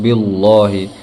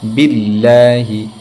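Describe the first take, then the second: First: The L in Allah sounds heavy and thick. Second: The L in Allah sounds light and thin. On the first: The speaker calls it wrong. "ये तरीका गलत है" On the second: The speaker calls it right. "जबकि असल क्या है"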